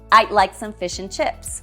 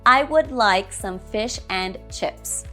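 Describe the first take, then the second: First: Would is contracted to a single d sound. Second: The small words are said in full strong forms. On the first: "we can use weaker forms sometimes" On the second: "Strong form, This version sounds unnatural"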